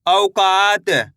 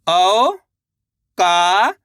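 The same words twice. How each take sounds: First: Said in the usual way. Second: औकात drawn out very slowly, each syllable stretched, rising at the end; teacher sounding out औकात for a child; sounded out slowly. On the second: Shown as a demonstration. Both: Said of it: "तो मिलके बन जाएगा".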